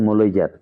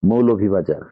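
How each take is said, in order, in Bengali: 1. নামটি আঞ্চলিক উচ্চারণে সংক্ষেপে বলা হয়েছে। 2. নামটি প্রমিত রূপে পুরোপুরি বলা হয়েছে। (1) "আঞ্চলিকতার টানে" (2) "অ্যাকচুয়াল যে প্রনাউন্সিয়েশন"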